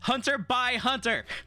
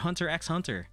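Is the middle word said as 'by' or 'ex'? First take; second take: by; ex. First: The middle word is said as by. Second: The middle word is said as the letter ex. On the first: The speaker calls it right. "The X pronounces by, please" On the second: The speaker calls it wrong. "I know people do be saying"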